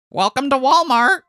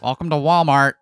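First: It is said in a high-pitched voice. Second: It is said in a lower-pitched voice.

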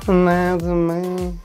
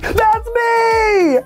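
First: It is said flatly, without enthusiasm. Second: It is said with lively enthusiasm.

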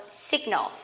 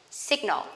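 Both takes have the same delivery.

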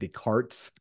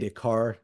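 First: The name is said with an unusual pronunciation. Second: The name is said with its usual pronunciation. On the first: The speaker calls it wrong. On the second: The speaker calls it right.

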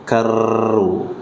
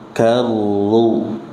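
First: The doubled r is said with a bouncing trill. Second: The doubled r is held smoothly without bouncing. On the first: The speaker calls it wrong. "jangan sampai ada bunyi karru" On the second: The speaker calls it right. "jangan dibaca dengan mantulan"

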